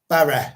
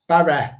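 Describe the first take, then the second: Both takes have the same delivery.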